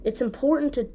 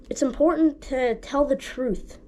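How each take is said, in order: First: Breathy whispered start of the point. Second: Said in the usual way. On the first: Shown as a demonstration. Preacher whispering the key point before saying it aloud. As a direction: drop to a whisper on important. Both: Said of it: "repeats the point".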